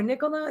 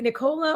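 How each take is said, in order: First: Nicola said NIK-uh-la; Nicola, first stress. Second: Nicola said ni-KOH-la; Nicola, middle stress. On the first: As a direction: say Nicola stressed on NIK, with a short weak middle vowel. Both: Shown as a demonstration. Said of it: "Is it Nic-, Nicola or Nicola".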